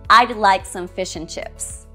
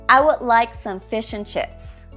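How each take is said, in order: First: 'Would' is shortened to just a 'd' sound. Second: 'Would' is said in a reduced, weak form. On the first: "we can use weaker forms sometimes" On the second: "Now let's go with the weak forms"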